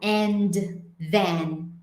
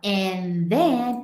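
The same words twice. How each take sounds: First: The D sound in 'and' is pronounced. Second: The D sound in 'and' is dropped. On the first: "ele não fala and then" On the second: "ele some com esse som de D"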